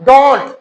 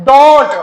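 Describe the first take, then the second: Both takes have the same delivery.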